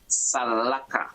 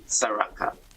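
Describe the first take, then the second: First: The middle consonant is an L sound. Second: The middle consonant is an R sound. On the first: This is the original form of the word. "the word originally used was Salaka" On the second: This is the form many people use today. "A lot of people are referring to it as Saraka, literally Saraka"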